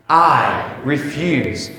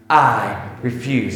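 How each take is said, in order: First: It is said with more force. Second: It is said with ordinary force.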